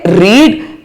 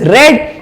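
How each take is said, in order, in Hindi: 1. स्वर लंबा है, जो reed जैसा सुनाई देता है। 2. स्वर छोटा है, जो red जैसा सुनाई देता है। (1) "when it is present tense we will say रीड" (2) "when it is past tense we will say it is रेड"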